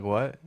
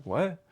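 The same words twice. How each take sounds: First: Said in the usual way. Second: High rising disbelief; a sharp, incredulous what; surprised what. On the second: Retold or imitated. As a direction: boss told me to leave, and I reply with disbelief. Retold confused reply to boss.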